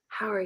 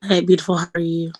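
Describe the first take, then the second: First: Soft, hushed imitation of sultry; mock sultry voice. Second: Sultry voice. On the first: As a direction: try to purr it back softly. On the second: Real, not acted. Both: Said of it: "I need a sultry voice like that".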